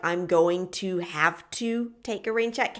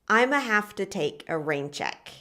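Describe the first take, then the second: First: 'I'm going to' is said in full. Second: 'I'm going to' is squeezed into 'I'ma'. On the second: "at some point you're probably gonna hear something like"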